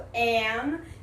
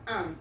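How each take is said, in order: First: The article is said with a full vowel. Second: The article is said short with a reduced vowel.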